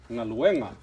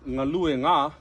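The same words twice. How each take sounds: First: Ngaluenga with the emphasis on the e before nga; stress moved to second-last syllable. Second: Ngalue nga, stress left on the u, nga tacked on separately; wrongly placed stress. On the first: Teacher correcting the mistake, ngaluenga stressed on the second-last syllable. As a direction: run ngaluenga together, leaning on the e. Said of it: "the emphasis changes to the second to the last syllable".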